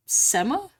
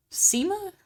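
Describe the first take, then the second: First: "Sema" with a short e, SEH-ma; trying a pronunciation. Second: "Sema" with a long ee, SEE-ma; trying another pronunciation. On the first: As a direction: ask "Sema" as SEH-muh. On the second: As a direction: ask "Sema" as SEE-muh, pitched higher. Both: Real, not acted. Trying two pronunciations of a name.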